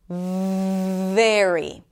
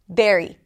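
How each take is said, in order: First: The first consonant is a flowing fricative. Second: The first consonant is an abrupt stop. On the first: The speaker calls it right. "this is a fricative. That means that it's going to take you a little bit of time to pronounce this sound" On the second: The speaker calls it wrong. "some people might pronounce it as an oral stop"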